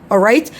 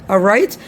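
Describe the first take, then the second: The two takes are said the same way.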